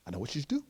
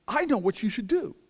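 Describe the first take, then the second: First: Understated, knowing repeat of a wise claim; mock sage. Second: High, loud, grand pronouncement; mock great wisdom. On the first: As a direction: hold back the secret, unhurried. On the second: Elder woman telling him she knows the answer, grandly wise. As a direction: announce it like a great revelation. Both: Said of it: "of the greatest wisdom in the world".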